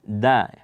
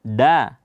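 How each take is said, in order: First: "da" with tongue tip at the upper teeth; touch the base of the front teeth for "da"; correct dal. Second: "da" with the tongue tip set back from the teeth; wrong dal. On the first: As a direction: dental "da". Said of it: "ujung lidah berjumpa dengan pangkal gigi". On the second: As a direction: make the d of "da" on the palate. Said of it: "jangan dibaca". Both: Shown as a demonstration.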